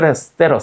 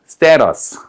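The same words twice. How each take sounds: First: The word is said quickly and run together. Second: The word is said at a normal, careful pace.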